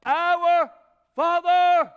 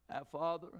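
First: "Our" and "Father" stretched, much louder and higher; drawn-out cry of Our Father. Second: Said in the usual way. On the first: Shown as a demonstration. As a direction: call out "Our ... Father" like a summons. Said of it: "relationship with the Father himself".

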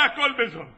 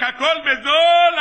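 First: Softer echo of the market call; fading vendor's cry. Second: Drawn-out, slow market cry, pitched up; imitated vendor calling out; street vendor's shout. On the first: Retold or imitated. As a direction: repeat the hawker's cry, dropped back down. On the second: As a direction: hawk your wares across the market. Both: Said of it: "ההוא עוד צועק".

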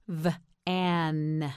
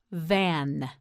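First: "V-an" split into vvv... an; sounded out. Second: Said in the usual way. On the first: Shown as a demonstration. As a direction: buzz the V, pause, then finish "V-an". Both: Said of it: "You try it".

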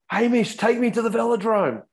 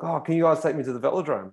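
First: High, louder call across the road; retold yell from a tired rider. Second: Said in the usual way. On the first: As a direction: shout it to a mate from the bike. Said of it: "as I yelled out". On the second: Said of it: "I was like".

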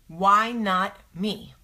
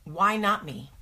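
First: Slow, separate stresses on "Why not me"; "Why not me" said slowly, word by word; emphatic challenge. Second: Said in the usual way. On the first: Acted. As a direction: stretch "Why" and "not", pausing before "me". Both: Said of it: "I'm gonna say to fear".

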